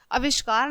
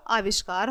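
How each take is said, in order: First: "आविष्कार" opened with short A; short first vowel. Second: Said in the usual way. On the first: Shown as a demonstration. Teacher shows children the error, short-A "आविष्कार". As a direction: say "आविष्कार" as avishkaar. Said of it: "आविष्कार नहीं होता बच्चों". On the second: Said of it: "आविष्कार होता है".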